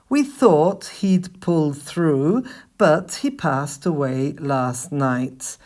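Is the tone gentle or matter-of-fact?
matter-of-fact. It is said in a plain, matter-of-fact tone. The news is simply being explained, not delivered. The speaker calls it wrong. "I didn't say that with the same tone that you should usually use when you're talking about people who passed away"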